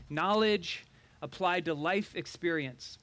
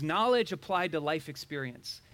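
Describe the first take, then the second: First: Slow, spaced out, pausing after "Knowledge"; emphatic repeat. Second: Said in the usual way. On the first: Shown as a demonstration. Preacher repeats the definition of wisdom, slow and emphatic. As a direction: spell out "Knowledge applied to life experience" slowly, phrase by phrase.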